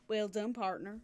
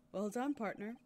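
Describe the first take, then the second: First: Put-on southern "partner"; southern accent. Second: Said in the usual way. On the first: Shown as a demonstration. Streamer redoing the game character's praise, playful southern accent. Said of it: "give him a southern accent". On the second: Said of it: "Whenever he says partner".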